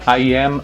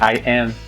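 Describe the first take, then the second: First: The final M is pronounced clearly. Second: The final M is pronounced unclearly. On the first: "when they try to say I am" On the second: "Usually they say I am, like I am. That makes no sense"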